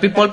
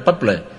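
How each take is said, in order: First: The name sounds like the word people. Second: The name sounds like the word purple. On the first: The speaker calls it wrong. "La gente decía People" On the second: The speaker calls it right. "pero es Purple"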